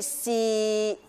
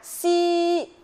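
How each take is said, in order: First: The pitch stays level in the middle. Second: The pitch stays high and level. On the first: "第三声去到我们的中音区" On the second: "接下来我们要学习第一声了哈"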